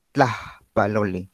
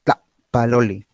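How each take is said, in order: First: "Tlaxpalole" slow, breathy h after the first syllable; aspiration. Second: "Tlapalole" slow, cut by a silent stop after "Tla"; saltillo. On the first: Teacher shows own aspirated form, "Tlaxpalole" split by a breath. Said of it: "esta aspiración". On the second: Teacher demonstrates saltillo, "Tlapalole" with brief glottal stop. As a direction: close the throat after "Tla" in "Tlapalole", no air. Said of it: "es un cierre glotal absoluto, breve". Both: Shown as a demonstration.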